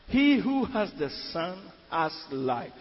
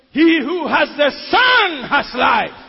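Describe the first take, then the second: First: Said in the usual way. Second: Slow, loud preaching shout; preached shout. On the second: Shown as a demonstration. Preacher repeating his key verse to the church, slow loud shout. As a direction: proclaim the verse with full force.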